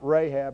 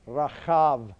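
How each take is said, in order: First: The name is said with a B sound. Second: The name is said with a V sound. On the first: The speaker calls it wrong. "it's not Rahab" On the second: The speaker calls it right. "the bet that should be pronounced like a V"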